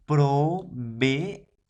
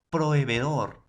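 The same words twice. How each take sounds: First: "Proveedor" slowed, both Es split: pro-ve-e-dor; syllabified demo. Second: Said in the usual way. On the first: Shown as a demonstration. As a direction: break "Proveedor" into syllables, separating the E and E. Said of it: "se va a separar". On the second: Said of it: "Ahí está".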